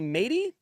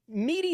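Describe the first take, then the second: First: The first syllable sounds like 'may'. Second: The first syllable sounds like 'mee'. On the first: The speaker calls it right. "it's may sound" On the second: The speaker calls it wrong. "Meaty seems too obvious"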